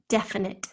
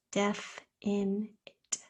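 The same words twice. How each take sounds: First: Said in the usual way. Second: "Deaf in it" slow and soft, one syllable at a time; broken into syllables. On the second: Shown as a demonstration. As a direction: separate "Deaf", "in" and "it" with clear gaps. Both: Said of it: "Spell in syllables".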